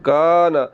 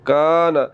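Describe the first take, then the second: First: The first vowel is drawn out long. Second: The same.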